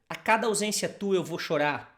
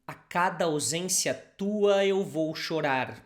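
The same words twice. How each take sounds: First: The sentence is said fast. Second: The sentence is said slowly.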